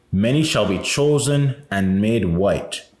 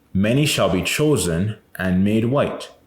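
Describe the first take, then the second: No difference in how they are said.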